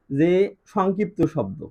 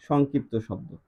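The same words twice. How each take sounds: First: Slow dictation. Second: Said in the usual way. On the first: Shown as a demonstration. Teacher to students, introducing the term, slow dictation. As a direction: spell out যে সংক্ষিপ্ত শব্দ slowly, word by word. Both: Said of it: "কি শব্দ?".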